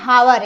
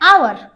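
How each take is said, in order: First: The word starts with a clear h sound. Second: The word starts with a vowel, no h. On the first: "लेकिन होता क्या है हावर" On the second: "पढ़ते हैं आवर"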